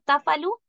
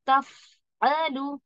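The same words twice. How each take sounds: First: The f sound lacks its flowing breathy quality. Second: The f sound flows on with audible breath. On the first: The speaker calls it wrong. "ऐसे नहीं पढ़ना है" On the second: The speaker calls it right. "ये जो आवाज चली ना"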